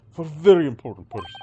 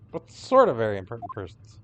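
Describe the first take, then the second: First: Put-on louder proud Russian accent on very important persons; Russian-accented boast. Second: Said in the usual way. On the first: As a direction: puff up like a Russian guard. Sailor boasts about cabins.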